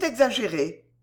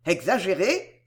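First: "exagérées" said with a falling, settled end; "exagérées" closed with a downward tune; falling statement. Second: "Exagérées" with a long rising question tune; "Exagérées" echoed with the pitch climbing at the end. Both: Acted.

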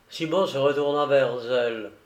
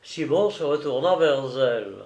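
No difference in how they are said.

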